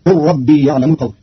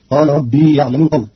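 First: قل said qul, short u, lam merged into ربي; قل as a command, qur-rabbi; short qul blended into rabbi; Qalun reading. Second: قال with long a after the qaf; قال said qaala, long vowel; standard reading. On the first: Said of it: "فتصير". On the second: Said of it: "قرأ قالون كلمة قال بضم القاف". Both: Shown as a demonstration.

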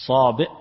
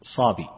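First: صابئ cut off by a glottal stop, louder; with hamza. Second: صابي ending in a plain long ee; no hamza. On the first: Teacher showing the first of two forms, صابئ with hamza. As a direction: hit the final hamza of صابئ hard. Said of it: "وفيه لغتان، الهمز". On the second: Teacher showing the second of two forms, صابي without hamza. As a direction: let صابي end open, without a glottal stop. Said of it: "ويقال أيضا". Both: Shown as a demonstration.

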